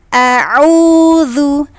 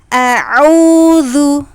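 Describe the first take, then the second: The two takes are said the same way.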